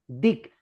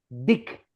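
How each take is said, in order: The two takes are said the same way.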